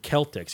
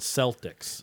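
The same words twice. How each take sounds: First: The word begins with a K sound. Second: The word begins with an S sound. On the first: "You don't say the Boston Celtics" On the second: "you see C-E and you expect the C to have the S sound"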